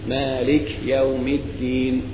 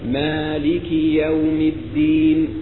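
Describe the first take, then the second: First: The k is silent, with no vowel after it. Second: The k is followed by a full, clear i vowel. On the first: The speaker calls it wrong. "تسكينهم للكاف" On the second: The speaker calls it right. "لا بد من إشباع الكسرة وتوضيحها"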